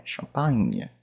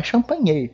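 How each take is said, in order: First: "champagne" ending softly on nasal gn; slow, soft "champagne", final E dropped; silent final E. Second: "champanhe" with the last E pronounced; wrong French, voicing the ending of "champanhe" as ê; "champanhe" with a clear final vowel; sounded final E. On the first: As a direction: let "champagne" die away in the nasal nh. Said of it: "Não é champanhe, é champagne". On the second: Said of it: "Não é champanhe". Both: Shown as a demonstration.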